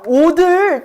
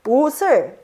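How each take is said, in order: First: A d sound links into the final syllable. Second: An s sound links into the final syllable. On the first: The speaker calls it wrong. "여기에도 음절의 끝소리 규칙을 적용하면은" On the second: The speaker calls it right. "음절의 끝소리 규칙을 적용하지 않고 연음만 해주어서"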